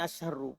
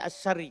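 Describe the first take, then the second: First: The word ends with a u vowel. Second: The word ends with an i vowel. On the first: It is the predicate of an omitted subject. "Bisa saya baca ini asyarru" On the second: It renames the preceding noun. "Kalau dibaca asyarri"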